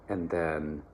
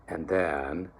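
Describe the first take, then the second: Both takes have the same delivery.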